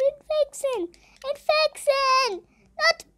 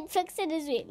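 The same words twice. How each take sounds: First: High silly cartoon squeak; squeaky voice. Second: Said in the usual way. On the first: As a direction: squeak the word, slow and high. Squeaky voice repeating the mode.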